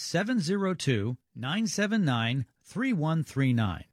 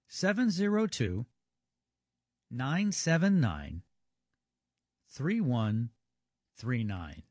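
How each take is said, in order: First: The number is read at normal speed. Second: The number is read more slowly.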